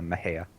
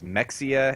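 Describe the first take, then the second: First: The middle consonant is an h sound. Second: The middle consonant is a ks sound. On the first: This is how the town's name is actually said. The speaker calls it right. "but no, it's uh, Mahia" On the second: This is how people unfamiliar with the town guess it. The speaker calls it wrong. "some people would think it was Mexia"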